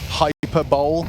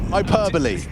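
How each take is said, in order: First: It is said as three syllables, ending 'bowl'. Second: It is said as four syllables, ending 'bolee'. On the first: The speaker calls it wrong. "as I used to think it was pronounced" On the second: The speaker calls it right. "How we say it"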